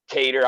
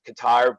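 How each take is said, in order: First: The name sounds like the word cater. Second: The name sounds like the country Qatar. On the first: "we'll go with the American version here" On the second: "I have ancestors from Britain. It's pronounced Qatar"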